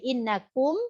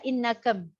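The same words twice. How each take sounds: First: The u vowel is fully rounded. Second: The u vowel is mixed toward a. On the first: The speaker calls it right. "Mesti innakum" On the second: The speaker calls it wrong. "dibaca innakum, ya kan? Tercampur harakatnya"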